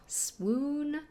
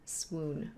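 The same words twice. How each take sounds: First: Swoon. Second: Second swoon dropped low and soft. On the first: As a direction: swoon swooped up high. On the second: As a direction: let the word swoon sink low and quiet. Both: Shown as a demonstration. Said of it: "Like, oh".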